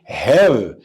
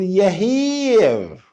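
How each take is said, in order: First: It starts directly with a short h sound. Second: It starts with an extra y-like sound. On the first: The speaker calls it right. "هننطق نقول له إيه؟" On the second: The speaker calls it wrong. "اوعى تغلط وتقول يهير"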